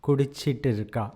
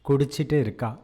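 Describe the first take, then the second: No difference in how they are said.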